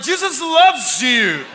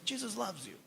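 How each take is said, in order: First: Loud, very slow, higher and laughing, half shouted; blurted while fleeing. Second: Much softer, trailing off almost to nothing; timid whisper-soft. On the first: Preacher retelling how he blurted to the woman and ran: a loud laughing half shout. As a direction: blurt it out and bolt. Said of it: "Mas falei vazando". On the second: Preacher retelling his first shy try at witnessing: a nearly vanishing murmur. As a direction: barely dare to say it. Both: Retold or imitated.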